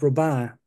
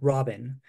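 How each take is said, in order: First: The name is given a French pronunciation. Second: The name is given an English pronunciation. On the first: The speaker calls it right. "this is pronounced Robin" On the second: The speaker calls it wrong. "not Robin"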